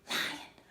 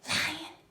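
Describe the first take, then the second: First: It is spoken in a whisper. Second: The same.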